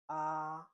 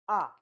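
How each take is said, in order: First: The syllable is said with the first tone. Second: The syllable is said with the fourth tone. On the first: "The first tone is this, like this one" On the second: "And the fourth one is"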